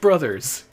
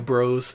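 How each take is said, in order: First: The word is said in full as 'brothers'. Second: The word is said in short as 'bros'. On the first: The speaker calls it right. "pronounced brothers" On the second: The speaker calls it wrong. "All you speedrunners who call it Mario Bros, that's incorrect"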